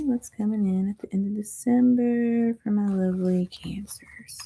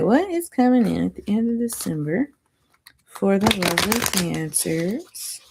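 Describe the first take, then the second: First: Soft breathy whisper. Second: Said in the usual way. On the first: Pretend. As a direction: whisper the question to the viewers. Repeats the question in a whisper.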